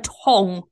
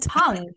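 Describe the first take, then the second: First: The vowel sounds like the one in 'long'. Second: The vowel sounds like the one in 'lung'. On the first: The speaker calls it wrong. "She calls a tongue a tong" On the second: The speaker calls it right. "It's a tongue"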